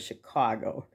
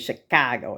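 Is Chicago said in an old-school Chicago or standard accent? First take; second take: standard; old-school Chicago. First: It is said in a standard accent. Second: It is said in an old-school Chicago accent. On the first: "instead of" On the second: "old school Chicago people talk, they might say"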